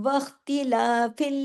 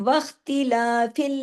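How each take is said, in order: No difference in how they are said.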